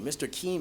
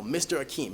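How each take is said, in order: First: Keem with the opening A dropped; kids' mispronounced name. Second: Said in the usual way. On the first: Shown as a demonstration. Kids botching teacher's name, Keem without its first syllable. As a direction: say Keem as one syllable, no A before it. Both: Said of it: "so many variations of my name".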